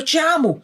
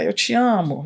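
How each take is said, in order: First: The phrase is said in an angry tone. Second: The phrase is said in a scornful, dismissive tone. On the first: "Eu falo a frase eu te amo zangada" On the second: "Uma frase mais, assim, desdenhosa"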